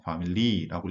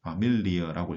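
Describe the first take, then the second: First: Family said the English way, stress on FA; wrong English reading. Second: Familie with stress on MI, slow; correct German reading. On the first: Teacher shows the wrong way to read Familie. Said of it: "family라고 읽지 않고". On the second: Teacher gives the right reading of Familie. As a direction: say Fa-MI-lie, weight on MI. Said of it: "Familie라고 읽습니다". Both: Shown as a demonstration.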